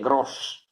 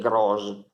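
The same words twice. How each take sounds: First: The final s is voiceless, a hissing s. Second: The final s is voiced, like a z. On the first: The speaker calls it right. "dite gross" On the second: The speaker calls it wrong. "Non dite gross"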